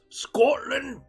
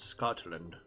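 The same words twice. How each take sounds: First: The word is said forcefully, with angry energy. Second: The word is said in a plain, calm way. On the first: The speaker calls it right. "You gotta be very angry when you say it. Very energetic" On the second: The speaker calls it wrong. "Most people would think it's"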